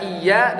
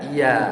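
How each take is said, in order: First: "iya" with a doubled, held y; with tasydid. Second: "iya" with one light y; "iya" said i-ya, no doubling; without tasydid. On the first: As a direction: press the y of "iya": iy-ya. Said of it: "beda baca iya dengan iya". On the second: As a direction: glide through "iya" as i-ya. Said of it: "Iya tanpa tasdid". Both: Shown as a demonstration.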